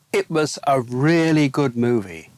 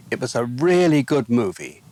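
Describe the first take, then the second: First: IT leaned on at the start, falling close; stress on it. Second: REALLY leaned on, falling close; "really" carries the weight; stress on really. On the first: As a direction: push the word it. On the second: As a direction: push the word really. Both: Shown as a demonstration.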